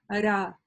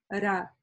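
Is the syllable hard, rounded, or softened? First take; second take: softened; softened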